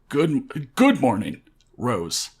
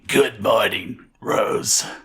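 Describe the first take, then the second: First: The voice is plain and clear. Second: The voice is rough and raspy. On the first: The speaker calls it wrong. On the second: The speaker calls it right.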